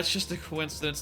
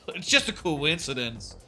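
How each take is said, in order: First: It is said in a modest, self-effacing tone. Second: It is said in a proud, haughty tone. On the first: "I would read that in a self uh facing way" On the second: "more as haughty to her"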